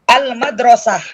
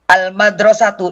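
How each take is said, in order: First: The word ends with an h sound. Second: The word ends with a tu sound. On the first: "Kalau dia sukun, dia jadi ha" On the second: "ini taknya"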